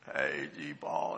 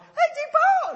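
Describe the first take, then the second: First: It is said in a hoarse, croaky voice. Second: It is said in a high, clear voice.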